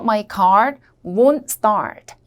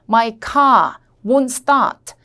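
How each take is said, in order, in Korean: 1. 비영국식 억양으로 말해요. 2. 영국식 억양으로 말해요.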